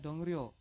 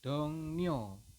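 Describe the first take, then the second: First: The second syllable begins with an R sound. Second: The second syllable begins with an N sound. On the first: The speaker calls it wrong. "Anda tidak boleh membacanya dongryo" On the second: The speaker calls it right. "Anda membacanya adalah dongnyo"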